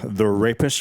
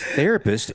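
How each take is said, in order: First: It is split into two separate words. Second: It is said together as one word. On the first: The speaker calls it wrong. "he'll like separate the words" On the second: The speaker calls it right. "That's therapist, you idiot"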